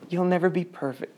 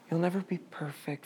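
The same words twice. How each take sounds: First: Said in the usual way. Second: Much softer, "never" gently leaned on; soft reassurance. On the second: Retold or imitated. Church soothing the imperfect: soft mock comfort. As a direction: coo it like comfort. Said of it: "and we say".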